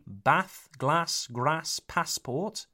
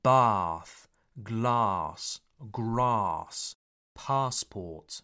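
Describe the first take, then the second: First: Bath, glass, grass, passport with short 'a' as in cat. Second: Bath, glass, grass, passport with long 'ah', each falling. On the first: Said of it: "where some people say". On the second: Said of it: "has a longer R, A sound". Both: Shown as a demonstration.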